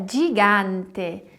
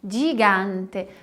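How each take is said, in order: Both takes have the same delivery.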